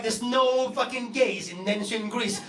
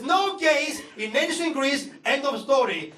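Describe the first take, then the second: First: Slow mocking repeat of dad's denial; sarcastic echo, lightly voiced. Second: Slow, firm mock denial; half-hearted imitation of an angry father; angry dad, mild. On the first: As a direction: parrot him back with scorn. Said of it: "And I was like". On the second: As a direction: lay down the law like a stubborn dad. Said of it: "my dad was very angry".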